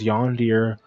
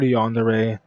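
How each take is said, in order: First: The word ends with a 'deer' sound. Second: The word ends with a 'deh-ray' sound. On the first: "The most common pronunciation is yondeer" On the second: "people have a difficulty pronouncing the word yandere"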